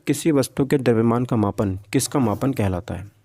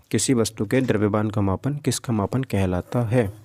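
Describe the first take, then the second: No difference in how they are said.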